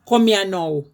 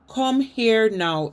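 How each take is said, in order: First: It is said in broad Jamaican Patois. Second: It is said in Standard English. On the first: This is the basilect, the pure patois form. "That's the Basilec" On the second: This is the prestige form used for social mobility. "is the English"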